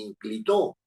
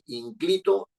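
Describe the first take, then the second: First: The stress is on the third syllable. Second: The stress is on the second syllable. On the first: "ni inclitó" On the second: "no estoy diciendo ni inclito"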